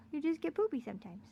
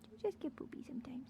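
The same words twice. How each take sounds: First: Said in the usual way. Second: Whispered. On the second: Real, not acted. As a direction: whisper "You just get poopy sometimes." softly and quickly. Comforting dog, repeated.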